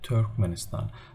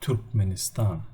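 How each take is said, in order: First: The first vowel is an English 'er' sound. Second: The first vowel is a rounded 'ü' sound. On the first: This is how English speakers say it. "This is the English pronunciation" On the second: This is how the local people say it. "we call it Turkmenistan, Turkmenistan with a ü"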